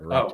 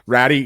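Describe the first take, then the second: First: The name ends in an 'oo' vowel. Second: The name ends in an 'ee' vowel. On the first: The speaker calls it right. "but you actually say it Ratu" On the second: The speaker calls it wrong. "it is a fucking Y"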